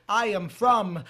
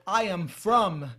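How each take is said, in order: Both takes have the same delivery.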